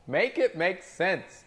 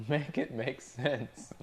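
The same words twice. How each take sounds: First: Higher, slow, pleading disbelief; drawn-out exasperated plea. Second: Said in the usual way. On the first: Shown as a demonstration. Server to chat, exasperated and drawn out. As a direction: stretch it out like begging for logic. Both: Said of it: "repeats phrase two ways".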